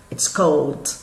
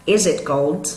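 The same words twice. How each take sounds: First: "It's cold" as a low, falling statement. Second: "Is it cold" rising on "cold"; question. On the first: Teacher shows how to affirm it's cold, statement. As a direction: state "It's cold" without any questioning lift. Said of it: "Se eu fosse afirmar". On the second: Teacher inverts the order to ask, question. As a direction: ask "Is it cold" with a lift at the end. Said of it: "Mas eu quero perguntar". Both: Shown as a demonstration.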